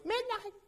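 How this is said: The name is called in a small, timid voice. The caller has no authority over the dog. "this little voice"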